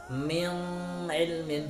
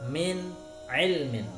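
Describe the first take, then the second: First: The n is softened and barely heard. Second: The n is pronounced crisply and distinctly. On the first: The speaker calls it wrong. "dibaca dengan samar" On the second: The speaker calls it right. "harus jelas"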